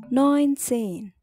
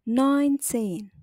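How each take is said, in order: The two takes are said the same way.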